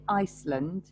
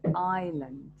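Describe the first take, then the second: First: The S sound is pronounced in the word. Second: The S sound is left out of the word. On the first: The speaker calls it wrong. "we don't say Iceland" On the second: The speaker calls it right. "we say island. The S here is silent"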